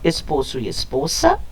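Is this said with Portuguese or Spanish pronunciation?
Spanish. It is said with Spanish pronunciation.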